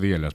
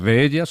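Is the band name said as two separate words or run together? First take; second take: run together; separate. First: It is run together into one word. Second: It is said as two separate words. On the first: "la pronunciación era como dielas" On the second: "puede ser de ellas"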